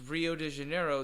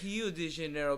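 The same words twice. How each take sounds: First: Rio begins with an English R sound. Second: Rio begins with an H sound.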